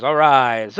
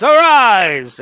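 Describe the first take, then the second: First: A loud, drawn-out summoning call; dramatic incantation. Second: Higher and much louder, a hammed-up summoning cry; booming incantation. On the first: Retold or imitated. Witch chanting over the tree, a loud summoning call. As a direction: call the spirit up with some force. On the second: Witch summoning over the tree, a hammed-up booming cry. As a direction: bellow it like a sorcerer raising the dead. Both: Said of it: "or a much more underwhelming way than that".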